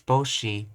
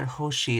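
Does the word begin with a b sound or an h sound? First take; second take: b sound; h sound. First: The word begins with a b sound. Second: The word begins with an h sound. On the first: The speaker calls it right. "it's boshi" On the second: The speaker calls it wrong. "It's not hoshi"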